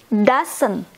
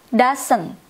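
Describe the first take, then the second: No difference in how they are said.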